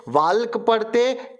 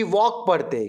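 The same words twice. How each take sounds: First: "वाल्क" with the L sounded; wrong reading, "वाल्क" with an audible L before K; L pronounced. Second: Said in the usual way. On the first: Shown as a demonstration. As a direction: say the silent L aloud in "वाल्क". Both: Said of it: "इसमें silent letter कौन सा है".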